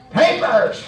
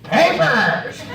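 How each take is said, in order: First: One clipped word, flat and falling; curt cop command. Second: Curt cop command again. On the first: Police officer demanding papers at the car window, curt. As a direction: bark it like a stern cop. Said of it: "and he said". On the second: Police officer repeating his demand, curt and flat. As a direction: snap the one word like a cop. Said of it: "just like that". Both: Retold or imitated.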